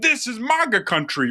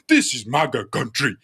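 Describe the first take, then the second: First: It is said in the speaker's plain accent. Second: It is said in a put-on Nigerian accent.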